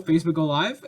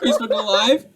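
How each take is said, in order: First: Said in the usual way. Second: Gleeful punchline. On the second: Pretend. Punchline repeated louder.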